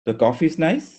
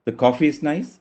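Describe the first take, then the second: The two takes are said the same way.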